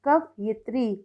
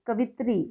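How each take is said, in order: First: Said in the usual way. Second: कवित्री with the "yi" left out; misspelt reading. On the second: Shown as a demonstration. Teacher reads the wrong column, कवित्री missing its "yi". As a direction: run कवित्री together as "ka-vi-tri". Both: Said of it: "सही और गलत".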